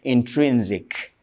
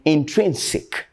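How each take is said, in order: First: The last syllable is said with a z sound. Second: The last syllable is said with an s sound. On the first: The speaker calls it wrong. "some people say intrinsic" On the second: The speaker calls it right. "that sick, not zick"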